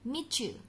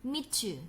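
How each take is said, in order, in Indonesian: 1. Bunyi t dan y menyatu menjadi bunyi ch. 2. Bunyi t dan y menyatu menjadi bunyi ch.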